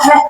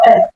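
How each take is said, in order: First: The syllable starts with a clear breathy h sound. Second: The syllable starts with a bare vowel, no h. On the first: The speaker calls it right. "I want that hat to come out" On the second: The speaker calls it wrong. "No, not oh, eh"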